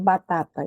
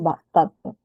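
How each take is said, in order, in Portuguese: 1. As vogais 'a' são feitas mais à frente. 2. As vogais 'a' são feitas mais para trás. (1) "eles não pronunciam, por exemplo, batata" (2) "eles pronunciam batata, batata. Vem lá de trás"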